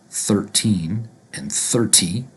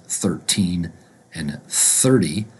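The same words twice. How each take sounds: First: "thirteen" and "thirty" both with crisp T, slowly. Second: "thirteen" with crisp T, "thirty" as "thirdy"; T versus D. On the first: Teacher showing the confusable way, T in both. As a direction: hit a hard T in "thirty" just as in "thirteen". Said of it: "with a T sound, both of them". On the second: Teacher correcting the pair, T then D. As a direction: keep the T in "thirteen", soften "thirty" to D. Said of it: "we pronounce it thirteen and thirty". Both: Shown as a demonstration.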